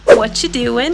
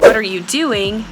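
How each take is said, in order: First: The word 'are' is dropped and the phrase is reduced. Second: Every word is fully pronounced, including 'are'. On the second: "This comes from the phrase, what are you?"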